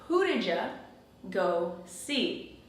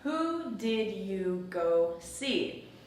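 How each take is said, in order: First: The words run together quickly, 'did you' blended. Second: Each word is said slowly and separately. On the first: "the sounds blend together" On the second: "But I didn't say it slowly like that"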